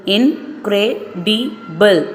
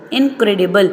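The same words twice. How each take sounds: First: "incredible" stretched into four slow beats; slow syllable by syllable. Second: Said in the usual way. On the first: Shown as a demonstration. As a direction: count out "incredible" slowly. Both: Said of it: "four syllables".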